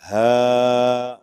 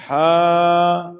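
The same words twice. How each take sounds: First: 'ہا' with light airy H, loud and held; letter demonstration. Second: 'ہا' with strong throaty H, high and loud; held 'ہا' squeezed from mid-throat; letter demonstration. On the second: Teacher contrasting two H letters, throaty and long. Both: Shown as a demonstration. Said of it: "یہ ملا جلا رجحان ہے".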